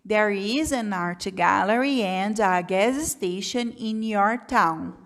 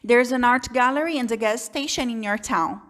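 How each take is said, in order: First: It is read at a moderate, steadier speed. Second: It is read quickly and smoothly without pauses. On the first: The reader is somewhat more advanced. "se você está um pouquinho mais avançado, você consegue ler assim" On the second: The reader is used to the words and structures. "Muito mais rápido, muito mais fluido"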